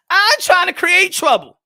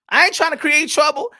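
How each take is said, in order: First: Higher, louder insistence; emphatic denial. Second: Said in the usual way. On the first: Real, not acted. Host denying he stirs trouble, loudly insistent. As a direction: protest it loudly, pitched right up. Repeats his denial with more force.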